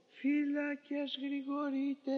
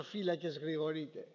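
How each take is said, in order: First: Slow, high, drawn-out call to the guards; drawn-out night watch cry. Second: The same call, softer and lower; faint, lower echo of the guard's call; call fading away. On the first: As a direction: call it slowly across the prison wall. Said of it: "ετούτος εφώναζε". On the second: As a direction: let the watch call die out, quietly. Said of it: "το". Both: Retold or imitated.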